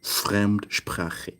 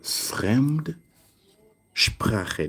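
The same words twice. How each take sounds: First: Fremdsprache as one word, no gap; joined compound. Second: Fremdsprache drawn out with a gap after Fremd; split compound. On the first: Teacher joining foreign and language, joined compound. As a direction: run Fremd straight into sprache in Fremdsprache. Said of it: "so it becomes". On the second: Teacher asking learners to look, split compound. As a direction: hold Fremd, pause, then give sprache. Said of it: "Look at that". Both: Shown as a demonstration.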